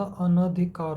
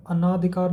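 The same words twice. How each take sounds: First: अनधिकार with a short न, no long आ; correct form, slowly. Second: अनाधिकार with a long आ after अन; wrong spelling said aloud. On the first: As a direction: say अनधिकार slowly, अन then धिकार. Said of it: "अनधिकार होता है". (सही उच्चारण, अनधिकार धीरे से, न छोटा) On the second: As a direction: say अनाधिकार stretching the second syllable as ना. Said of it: "अनाधिकार नहीं होता". (गलत उच्चारण, अनाधिकार में ना लंबा) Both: Shown as a demonstration.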